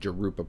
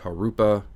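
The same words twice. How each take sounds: First: It begins with an English J sound. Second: It begins with a Spanish H-like sound. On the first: The speaker calls it wrong. "I've been mis- been mispronouncing it" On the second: The speaker calls it right. "It's a Spanish J"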